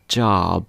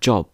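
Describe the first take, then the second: First: The vowel is a long, open American sound. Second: The vowel is a short, rounded British sound. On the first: The speaker calls it wrong. "in American English, they pronounce that O like an elongated U" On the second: The speaker calls it right. "In British English, we pronounce the O in words like job or hot"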